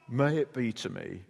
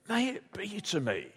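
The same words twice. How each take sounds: First: It is said in a flat, resigned tone. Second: It is said in an eager, enthusiastic tone. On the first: The speaker reluctantly accepts what is coming. "So it could be read as kind of resignation" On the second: The speaker gladly welcomes what is coming. "Or it could be enthusiastic faith"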